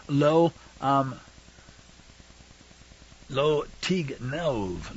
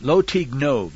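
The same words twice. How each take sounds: First: Very slow, softer, word by word; halting, drawn-out reading of a foreign phrase; careful sounding-out. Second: Said in the usual way. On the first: Real, not acted. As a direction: sound out the Hebrew slowly and quietly. Sounding out the Hebrew commandment.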